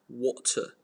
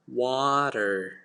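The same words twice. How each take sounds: First: It is said in a British accent. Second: It is said in an American accent. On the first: "in British English it's water" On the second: "But in American you're gonna sound like water"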